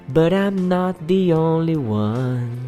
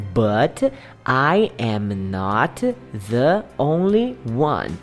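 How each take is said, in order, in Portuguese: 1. As palavras se ligam umas às outras na fala contínua. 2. Cada palavra é dita separadamente, sem ligação.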